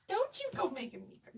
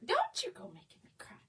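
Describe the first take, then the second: First: Pitched up playful scold; high teasing plea. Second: An unvoiced hushed echo of the plea; whispered repeat. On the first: Teasing a viewer whose compliment moved her, high-pitched. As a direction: tease her for the kind words. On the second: Repeating the plea to the viewer in a whisper. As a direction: say it again under your breath. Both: Real, not acted.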